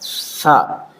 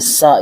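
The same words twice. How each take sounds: First: It starts with a soft th sound. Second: It starts with a hissing s sound. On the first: The speaker calls it right. "सीन नहीं है ये, सा है" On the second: The speaker calls it wrong. "सा बोलते हैं, सा, यानी ये सीन की आवाज निकाल रहे होते हैं"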